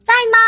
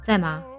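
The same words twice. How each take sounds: First: It sounds cute and playful. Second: It sounds plain and slightly curt.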